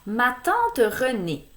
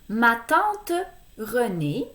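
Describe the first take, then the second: First: It is read at a normal speed. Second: It is read slowly.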